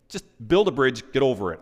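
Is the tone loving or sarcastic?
sarcastic. The phrase is said with an exasperated, sarcastic edge. The speaker is fed up with someone's whining. "we'll talk about the sarcastic version"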